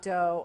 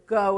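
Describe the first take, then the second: First: The word begins with a d sound. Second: The word begins with a g sound. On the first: The speaker calls it wrong. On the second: The speaker calls it right.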